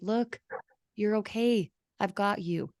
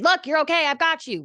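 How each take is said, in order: First: The pitch falls lower through the phrase. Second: The pitch stays high through the phrase. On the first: The speaker calls it right. "your voice, if you were talking to a friend, would fall a little bit" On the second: The speaker calls it wrong. "You wouldn't say"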